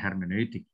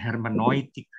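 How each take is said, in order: First: The 'eu' is said as two vowels. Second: The 'eu' is said like 'oi'. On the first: It follows the Latin reading. "Tapi kalau ala Latin ya hermeneutik" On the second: It follows the German reading. "Kalau cara baca Jerman ya hermeneutik, eu dibaca oi"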